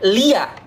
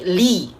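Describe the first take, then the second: First: The word ends with an added short ya syllable. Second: The word ends on a long i, with no added syllable. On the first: The speaker calls it wrong. "bukan lia" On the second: The speaker calls it right. "tapi li ya"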